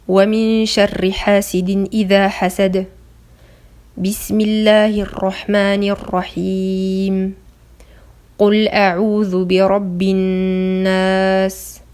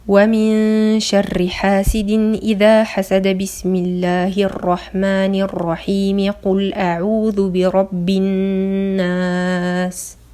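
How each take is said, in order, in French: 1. Il y a une pause aux deux jonctions. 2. Les trois parties s'enchaînent sans pause. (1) "il y a un arrêt entre chaque partie" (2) "il n'y a aucun arrêt, tout est lié"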